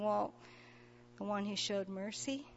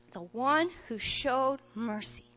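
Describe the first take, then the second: First: Soft, sheepish mumble with head hung low; a shamefaced, much softer answer. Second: Said in the usual way. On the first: Retold or imitated. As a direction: admit it quietly, embarrassed. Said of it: "very sheepishly kinda hanging his head". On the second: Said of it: "And Jesus says, "Yep".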